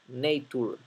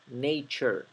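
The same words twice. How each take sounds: First: The ending is said without a ch sound. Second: The ending is said with a ch sound. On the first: The speaker calls it wrong. "y no la pronuncian nature" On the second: The speaker calls it right. "La terminación ture es chur"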